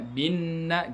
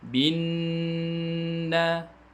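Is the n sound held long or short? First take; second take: short; long. First: The nasal n is cut short. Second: The nasal n is held long. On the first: The speaker calls it wrong. "Tidak boleh dibaca bin na gitu saja" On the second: The speaker calls it right. "Ditahan suara, dilamakan suara"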